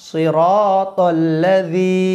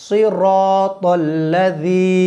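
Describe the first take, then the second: Both takes have the same delivery.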